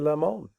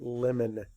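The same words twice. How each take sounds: First: The word has a fancy, unusual pronunciation. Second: The word has a plain, everyday pronunciation. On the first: The speaker calls it wrong. "You might be fancy and say it's a lemon" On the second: The speaker calls it right. "that's not how we say it. It's a lemon"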